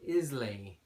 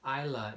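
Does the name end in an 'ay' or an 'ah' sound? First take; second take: ay; ah. First: The name ends with an 'ay' sound. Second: The name ends with an 'ah' sound. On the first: The speaker calls it wrong. "When I first saw it, I thought Islay" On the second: The speaker calls it right. "Isla is the correct, uh, the correct pronunciation"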